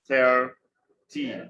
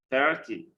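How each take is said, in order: First: "Thirty" split, THIR long and loud, ty lighter; syllable stress demo. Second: "Thirty" as one word, THIR stressed, falling ty; syllable stress demo. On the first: Teacher working through stress examples, "Thirty" broken apart. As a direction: punch THIR in "Thirty", pause, then ty. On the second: Teacher repeating the example, "Thirty" with stressed THIR run together. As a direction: say "Thirty" joined up, dropping on ty. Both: Shown as a demonstration. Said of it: "we tend to stress".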